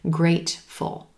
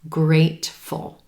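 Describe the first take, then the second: First: The T is gently released before the second syllable. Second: The same.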